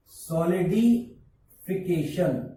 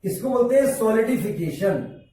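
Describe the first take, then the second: First: solidification drawn out slowly and softer; slow repeated term. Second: Said in the usual way. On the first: Shown as a demonstration. Teacher slowly repeats solidification for students. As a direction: stretch solidification out syllable by syllable.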